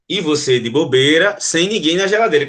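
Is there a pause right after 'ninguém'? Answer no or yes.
no. It pauses after bobeira only, not after ninguém. Nobody is being kept in the fridge. "E você de bobeira, vírgula, sem ninguém na geladeira"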